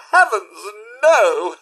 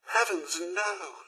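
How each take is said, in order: First: Loud horrified outcry; shocked exclamation. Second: Hushed dismay. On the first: Robot butler hears tragic news from employer, shocked outcry. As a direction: cry out in dismay. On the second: Robot butler hears tragic news from employer, hushed dismay. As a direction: let it fall away quietly. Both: Acted.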